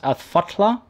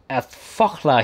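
First: The name is said with a T sound. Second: The name is said without a T sound.

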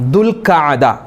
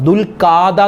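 First: The middle has two vowels split by a catch. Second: The middle is one long vowel without a catch. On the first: The speaker calls it right. "എന്താണ് ദുൽഖഅദ എന്നാണ് അതിൻ്റെ ഉച്ചാരണം" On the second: The speaker calls it wrong. "പല ആളുകളും ദുൽഖാദ മാസം, ദുൽഖാദ എന്ന് പറയും"

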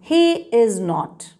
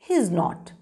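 First: Three full words are said: he, is, not. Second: He and is merge into one syllable before not. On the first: "This is the long form" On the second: "And what is the short form?"

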